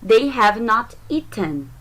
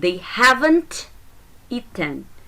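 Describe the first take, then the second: First: Have not is said as two full words. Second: Have not is contracted into one word.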